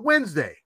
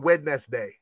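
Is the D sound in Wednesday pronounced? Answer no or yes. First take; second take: no; yes. First: The D sound in the middle is dropped. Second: The D sound in the middle is pronounced. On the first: "No D. Nobody says the D" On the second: "I've never heard anyone say"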